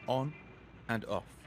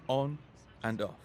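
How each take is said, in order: Both takes have the same delivery.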